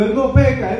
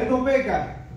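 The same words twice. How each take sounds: First: High, firm proclamation; raised angelic declaration; angel proclaiming. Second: High, softer reverent echo; high hushed reverent repeat; hushed angel echo. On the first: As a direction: declare it like a seraph. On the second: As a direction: let the praise echo back hushed. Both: Retold or imitated. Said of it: "Está diciendo".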